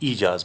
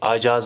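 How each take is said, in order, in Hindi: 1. यह शब्द लंबे 'ee' स्वर से शुरू होता है। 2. यह शब्द 'a' स्वर से शुरू होता है। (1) "अगर हम ज़ेर से बोलेंगे तो ये ईजाज बनेगा" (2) "अगर हम ज़बर से काम लेंगे तो ये आजाज बनेगा, जो गलत है"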